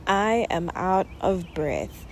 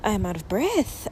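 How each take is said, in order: First: Panting slowly between words; slow out of breath. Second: Out of breath. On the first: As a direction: catch your breath, words drawn out slowly. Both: Real, not acted.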